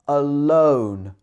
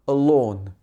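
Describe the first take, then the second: First: The vowel glides into a closing 'oh'. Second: The vowel is a steady 'or' sound. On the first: The speaker calls it right. "but alone" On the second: The speaker calls it wrong. "not alone"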